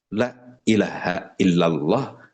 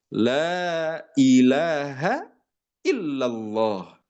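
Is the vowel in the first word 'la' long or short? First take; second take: short; long. First: The vowel in 'la' is cut short. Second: The vowel in 'la' is held long. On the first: The meaning changes to affirm another god. The speaker calls it wrong. "Kalaulah kita membacanya pendek" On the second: There is no god but God. The speaker calls it right. "pakai kalimat la, panjang"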